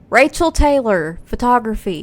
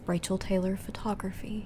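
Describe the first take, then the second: First: It is said loudly, right into the microphone. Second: It is said quietly, away from the microphone. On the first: The speaker calls it right. "You could say it louder than that" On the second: The speaker calls it wrong. "nobody heard that"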